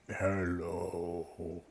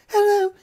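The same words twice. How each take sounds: First: It is said in a big, deep, booming voice. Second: It is said in a small, high voice. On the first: A large being in the tree is speaking. "a big booming voice from the tree goes" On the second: A small creature is speaking. "you hear a little voice go"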